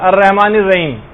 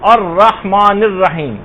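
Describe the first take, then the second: First: The h sound is a plain, light h. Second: The h sound is a deep, throaty h. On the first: The speaker calls it wrong. "یہ نہیں پڑھنا, عام طور پہ لوگ اسی طرح سے پڑھتے" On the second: The speaker calls it right. "ہا جو ہے وہ صحیح نکالنا"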